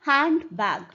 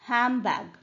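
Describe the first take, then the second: First: The first word ends with a clear 'nd' sound. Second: The first word ends with an 'm' sound. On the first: "ड होता है यहाँ पर" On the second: "rapidly बोलते हैं तो it becomes actually हैम bag"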